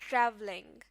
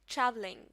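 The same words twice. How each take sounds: The two takes are said the same way.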